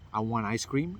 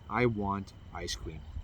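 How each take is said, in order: First: The pitch rises at the end. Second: The pitch falls at the end. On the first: The speaker sounds unsure, as if asking for it. The speaker calls it wrong. "is going up. It's like I'm asking a question" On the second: The speaker sounds sure and assertive. The speaker calls it right. "say the same sentences in down top"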